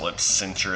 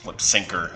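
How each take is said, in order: First: The second word has a ch sound. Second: The second word has a k sound. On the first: The speaker calls it wrong. "I always pronounced it lip cincher as a kid" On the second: The speaker calls it right.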